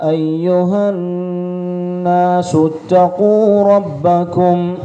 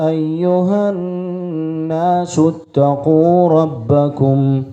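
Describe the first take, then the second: The two takes are said the same way.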